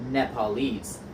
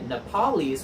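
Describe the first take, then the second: First: The stress falls on the last syllable. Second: The stress falls on the middle syllable. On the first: The speaker calls it right. "The accent moves back one syllable" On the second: The speaker calls it wrong. "we wouldn't say Nepalese"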